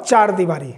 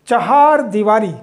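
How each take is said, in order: First: चार दीवारी with one-syllable "chaar", no "ha"; wrong pronunciation. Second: चहार दीवारी slowly, with "cha-haar" in two syllables; correct pronunciation. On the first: Teacher showing students what not to say, wrong pronunciation. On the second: Teacher drilling the right word for students, correct pronunciation. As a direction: stretch the "haa" of चहार in चहार दीवारी. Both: Shown as a demonstration. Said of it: "pronunciation ही गलत है".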